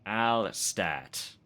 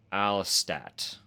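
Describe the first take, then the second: First: Alstat said AL-stat, louder; Alstat, flat a's, emphatic; Alstat again. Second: Alstat said AL-stat, firm; Alstat attempt. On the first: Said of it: "Where was I?". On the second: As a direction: Alstat with flat a's, loud. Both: Shown as a demonstration.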